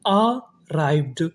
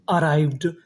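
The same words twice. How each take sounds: First: arrived split slowly as अ, राइव्ड; syllable-by-syllable. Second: Said in the usual way. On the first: Shown as a demonstration. Teacher building arrived for students, slow and split. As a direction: pause after the first vowel of arrived. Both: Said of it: "तो meaning क्या बनी".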